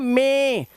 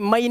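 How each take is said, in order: First: The vowel sounds like the 'ay' sound. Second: The vowel glides like the 'eye' sound. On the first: The speaker calls it right. "English में बोलते हैं मे" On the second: The speaker calls it wrong. "मई नहीं होता, मई तो आप हिंदी में बोलोगे उसको"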